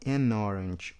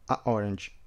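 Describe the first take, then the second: First: The article links smoothly into the noun. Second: There is a break between the article and noun. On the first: The speaker calls it right. "Olha que alívio" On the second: The speaker calls it wrong. "Então dá esse corte"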